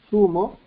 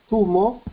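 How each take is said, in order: Both takes have the same delivery.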